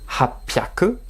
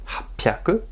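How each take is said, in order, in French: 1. Ça se contracte avec un son p. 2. Ça se contracte avec un son p.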